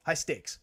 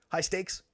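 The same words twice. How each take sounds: First: High Stakes. falling flat and final; High Stakes. ending on a fall, decided; settled falling tune. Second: High Stakes? rising at the end, unsure; High Stakes? with a rising question tune. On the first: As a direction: confirm High Stakes. as certain. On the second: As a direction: ask High Stakes? as if checking the name. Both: Real, not acted.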